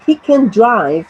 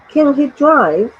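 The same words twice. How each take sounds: First: Said in the usual way. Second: "Can he drive" higher and slower, as a question; a slow, lifted yes-or-no "Can he drive"; yes-no question intonation. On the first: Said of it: "by inverting the verb and the subject". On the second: Shown as a demonstration. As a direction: ask "Can he drive" slowly, with raised pitch. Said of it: "yes or no questions".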